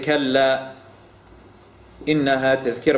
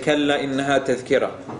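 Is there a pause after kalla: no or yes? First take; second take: yes; no. First: There is a pause right after kalla. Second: It runs on with no pause after kalla. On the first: Kalla stands alone as a rebuke before the next phrase. "We don't say" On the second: Kalla means 'indeed' and introduces what follows. "You say"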